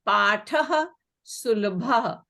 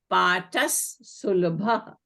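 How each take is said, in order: First: The first word ends in an h sound. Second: The first word ends in an s sound.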